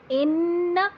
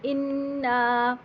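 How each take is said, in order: First: Said in the usual way. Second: اِنَّا with the noon nasalised and held two counts, slow; two-count ghunnah. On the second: Shown as a demonstration. (اِنَّا میں دو حرکت غنہ) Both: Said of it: "دو حرکت غنہ کیا".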